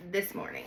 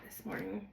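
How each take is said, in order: First: Said in the usual way. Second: Breathy whispered repeat. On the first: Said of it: "this morning. whisper". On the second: Shown as a demonstration. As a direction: drop to a hushed whisper.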